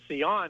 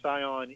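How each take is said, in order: First: The name is pronounced with French sounds. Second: The name is pronounced with Spanish sounds. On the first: "as the French would pronounce it" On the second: "in Spain"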